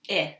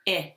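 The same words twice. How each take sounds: First: The vowel is the short i sound. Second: The vowel is the short i sound.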